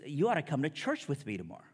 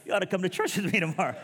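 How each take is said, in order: First: Said in the usual way. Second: High, loud, comically strained stoner voice; pot-smoker imitation. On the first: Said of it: "He goes". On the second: Buddy inviting him to church while passing a joint, mock stoner voice. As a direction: squeeze it out as if holding in a toke. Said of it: "handing me a joint while he's inviting me".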